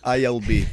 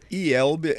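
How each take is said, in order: First: The letters are named with English letter sounds. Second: The letters are named with Portuguese letter sounds. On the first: "you say ILB" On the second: "We say IELB"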